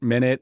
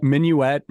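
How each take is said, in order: First: "minute" sounded out as MIN-it; minute pronunciation. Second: "Minuet" sounded out min-yoo-et, higher and louder; minuet pronunciation. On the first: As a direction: say "minute" with two short syllables. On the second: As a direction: punch out "Minuet" in three syllables. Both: Shown as a demonstration. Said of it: "saying minute might actually sound like minuet".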